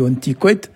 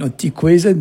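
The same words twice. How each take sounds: First: "ontikwet" without the Z, ending on a hard t; "ontikwet" clipped, the Z dropped, final t; local pronunciation. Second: "ontikwezed" with the Z sounded; "ontikwezed" said in full, Z voiced in the middle; written form. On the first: Teacher shows the local "ontikwet", Z dropped. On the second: Teacher gives the standard "ontikwezed", Z sounded. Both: Shown as a demonstration. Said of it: "mais nous, on dit ontikwet".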